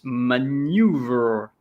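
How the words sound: It is said in an American accent. "in U S it's maneuver"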